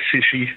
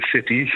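First: The middle consonant sounds like sh. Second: The middle consonant is a plain t.

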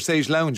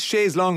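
First: The last word is said like 'lounge'. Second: The last word is said like 'long'. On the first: This is an English reshaping of the French form. "thought it was lounge, and that stuck" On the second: This is the original French form. "Originally, it's in a French word, L-O-N-G-U-E"

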